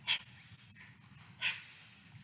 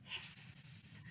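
First: Repeated breathy hissing; snake hiss. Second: Breathy unvoiced hiss; snake hiss. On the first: Acted. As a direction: pretend to be snakes outside the door. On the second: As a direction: keep hissing like a snake at Square's door. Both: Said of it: "said Triangle".

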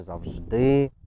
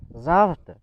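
First: ЗавждИ with stretched final ДИ; stress on last syllable. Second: ЗАвжди with high, punched ЗА; stress on first syllable. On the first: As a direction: lean on the end of завждИ. (наголос на останній склад: завждИ) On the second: (наголос на перший склад: зАвжди) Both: Shown as a demonstration. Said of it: "куди падає наголос".

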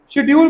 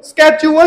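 First: शेड्यूल as "SHID-yool"; British schedule. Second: स्केड्यूल as "SKECH-oo-wal"; hard sk and extra "wal" in स्केड्यूल; wrong schedule pronunciation. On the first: Teacher advising students, शेड्यूल with "sh". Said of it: "शेड्यूल बोलो". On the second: Teacher warning students off it, स्केड्यूल as "skech-oo-wal". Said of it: "स्केड्यूल नहीं बोलना". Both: Shown as a demonstration.

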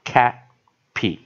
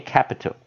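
First: Capital broken into three syllables, ca, pi, tal; alternative reading. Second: Capital run together with a weak middle vowel; usual reading. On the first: Teacher shows another way to read capital, syllable by syllable with "pee". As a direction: say capital slow and loud, with a clear "ee" in the middle. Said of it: "或者我们也可以念". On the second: Teacher gives the usual way to read capital, weak middle vowel. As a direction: say capital as one connected word, middle syllable unstressed. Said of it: "我们念capital". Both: Shown as a demonstration.

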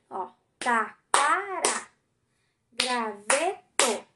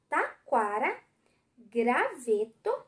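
First: Taquara and graveto dragged out slowly, syllable by syllable; slow syllable reading. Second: Slow syllable reading. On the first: Teacher showing the class the three syllables, slowly. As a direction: stretch taquara and graveto so each syllable is heard. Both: Shown as a demonstration. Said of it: "três sílabas".

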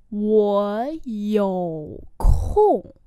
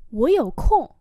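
First: Very slow, long syllables; slow model reading. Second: Said in the usual way. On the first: Shown as a demonstration. Teacher repeating a phrase for learners, very slowly. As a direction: draw out each tone.

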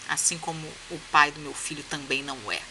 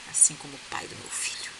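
First: Said in the usual way. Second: Savoring the line in a hushed whisper; whispered repeat. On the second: Shown as a demonstration. Relishing the heroine's comeback, a delighted whisper. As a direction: whisper it back like a juicy secret. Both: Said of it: "Olha aqui".

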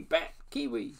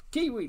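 First: Faint whispered echo. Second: Calling out. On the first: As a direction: fade it like a distant echo. Echo of the call. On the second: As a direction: call it out across the forest. Call echoing through forest. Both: Acted.

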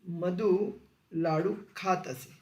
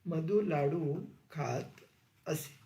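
First: Spoken slowly word by word for students to copy; slow, clear classroom dictation. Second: Slow and a little softer, as the dictation is said again; quiet, slow repeat of the dictation. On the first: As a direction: dictate it slowly, leaving a gap after each word. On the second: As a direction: say it again slowly and drop the voice toward the end. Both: Shown as a demonstration. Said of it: "रीती भूतकाळ".

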